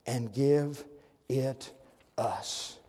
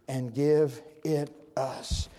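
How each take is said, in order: First: "And give ... it ... us" with long pauses between words. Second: "And give it us" drawn out very slowly as one phrase; slow repeat. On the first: Preacher spacing out the verse for the church, word by word. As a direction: let each word of "And give it us" land alone, pausing after each. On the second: Preacher repeating the verse slowly to the church. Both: Shown as a demonstration. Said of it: "Watch this".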